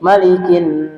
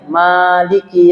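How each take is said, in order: First: The first 'a' vowel is kept short. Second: The first 'a' vowel is held long. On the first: "mana yang harus dibaca pendek" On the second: "maknya dibaca panjang"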